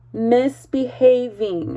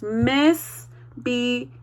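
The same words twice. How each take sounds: First: Said in the usual way. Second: Misbehaving said slowly, pulled apart into sections; slow sectioned Misbehaving. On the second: Shown as a demonstration. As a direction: break Misbehaving into its parts for the class. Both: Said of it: "put it into three different sections".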